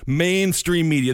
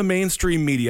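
First: MAINSTREAM MEDIA slowed and set apart; audible scare quotes. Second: Said in the usual way. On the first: Shown as a demonstration. Host flags a term as not his own, audible scare quotes. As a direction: say "mainstream media" slowly, as if in quotation marks. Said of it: "and I use quotations".

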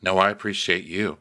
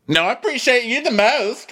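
First: Said in the usual way. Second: A high, coy "I appreciate you the most", lifting on "the most"; flirty mock gush. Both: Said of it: "Wink, shimmy".

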